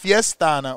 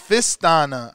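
First: The first syllable sounds like the word fiesta. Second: The first syllable sounds like the word fist. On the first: The speaker calls it wrong. "I thought it was Fiestana. Or am I pronouncing it wrong?" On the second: The speaker calls it right. "Oh wait, it's Fistana"

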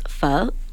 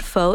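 First: The word dips and rises in pitch like a question. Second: The word is said without a questioning pitch rise. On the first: The speaker calls it right. "it's pho. It sounds like a question, right?" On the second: The speaker calls it wrong. "So it's not pho"

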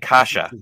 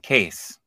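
First: The name is said as two syllables. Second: The name is said as one syllable. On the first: The speaker calls it right. "It was actually Kasha" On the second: The speaker calls it wrong. "the announcers start calling him Case"

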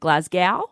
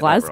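First: The last syllable rhymes with 'cow'. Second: The last syllable sounds like 'go'. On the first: The speaker calls it wrong. "A lot of people were calling it Glasgow. ... because of the W" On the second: The speaker calls it right. "Surely you know"

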